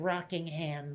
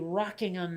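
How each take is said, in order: First: The last syllable is a full, clear 'ham'. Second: The last syllable is reduced to a weak 'um'. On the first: This is how it is said locally. "everyone says ham here" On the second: This is how it would be said in Britain. "if this was Britain, I'm sure it'd be Rockingham"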